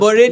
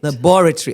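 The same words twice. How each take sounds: First: The main stress is not on the second syllable. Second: The main stress is on the second syllable. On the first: The speaker calls it wrong. "That's the Nigerian way of" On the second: The speaker calls it right. "the emphasis is on the second syllable"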